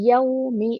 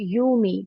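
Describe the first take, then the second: First: The first vowel is a rounded 'au' glide. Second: The first vowel is a plain long 'oo'. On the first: The speaker calls it right. "Lips को राउंड करना है और फतहा के साथ साउंड आना है यऊ" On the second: The speaker calls it wrong. "Not यूमी"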